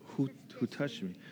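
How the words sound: It is said in a warm, compassionate voice. "So compassionate"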